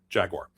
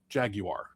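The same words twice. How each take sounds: First: It is said with an American pronunciation. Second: It is said with a British pronunciation.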